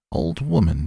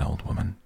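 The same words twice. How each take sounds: First: Put-on old woman bristles, a touch louder; sharp snap. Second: Said in the usual way. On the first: A narrator's reading. Old woman snaps back at the boy, mildly indignant. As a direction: throw his words back at him, offended. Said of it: "she snapped".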